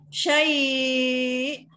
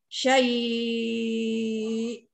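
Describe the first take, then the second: First: The vowel before the final glottal stop is held moderately long. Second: The vowel before the final glottal stop is held very long. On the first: "kalau empat" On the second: "enam harakat"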